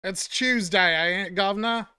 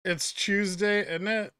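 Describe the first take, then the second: First: Hammed-up Cockney, "Tuesday" said as "Chewsday" and "governor" dropped to "guv'nor"; Cockney gutter accent. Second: Light British accent, Tuesday said as "tooz-day"; London-ish British accent. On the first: Streamer mocking a Cockney flower girl's accent. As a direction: do a mock Eliza Doolittle Cockney accent. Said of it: "fucking gutter accent, like Eliza Doolittle". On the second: Shown as a demonstration. Streamer imitating how a Brit says Tuesday, light London accent. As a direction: say "It's Tuesday" with a soft London lilt. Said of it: "that's more like London".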